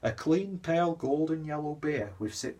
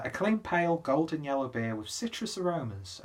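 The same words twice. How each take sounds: First: Higher-pitched, badly faked Wigan accent; terrible Wigan accent. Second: Said in the usual way. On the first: Beer reviewer reads the label in a bad Wigan accent. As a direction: attempt a Wigan accent and fail. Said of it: "that's terrible Wigan accent".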